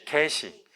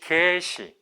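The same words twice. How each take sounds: First: 개시 with the first vowel 개 kept short; quick, unstretched first syllable in 개시. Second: 개시 with the first vowel 개 held long; drawn-out first syllable in 개시. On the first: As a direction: say 개 briefly in 개시, straight into 시. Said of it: "이거는 단음으로 발음해야 되고". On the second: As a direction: stretch the 개 in 개시, then add 시. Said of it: "이거는 장음으로 발음하셔야 돼". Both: Shown as a demonstration.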